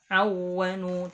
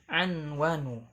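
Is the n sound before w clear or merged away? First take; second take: merged; clear. First: The n sound is merged into the w. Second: The n sound is pronounced clearly before w. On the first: The speaker calls it wrong. "ketika dibacanya tidak awanu" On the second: The speaker calls it right. "dibaca jelas"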